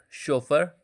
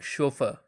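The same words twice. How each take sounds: First: It is said with an American accent. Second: It is said with a British accent. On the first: "In American accent, it sounds like" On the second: "in British accent, it uh, sounds like"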